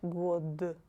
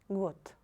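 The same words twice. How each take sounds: First: The final consonant is a voiced d. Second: The final consonant is a voiceless t. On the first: The speaker calls it wrong. "not год" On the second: The speaker calls it right. "you pronounce D like T"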